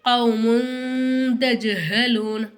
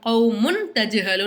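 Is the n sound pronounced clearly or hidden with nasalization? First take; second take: hidden; clear. First: The n sound is hidden with a nasal hum. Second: The n sound is pronounced fully and clearly. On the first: The speaker calls it right. "எப்படி சொல்லணும்?" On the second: The speaker calls it wrong. "அப்படின்னு சொல்லக்கூடாது"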